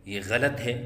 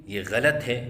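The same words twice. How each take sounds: The two takes are said the same way.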